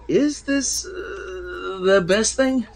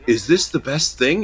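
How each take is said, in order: First: It is said with a hesitant pause mid-sentence. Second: It is said smoothly without any hesitation.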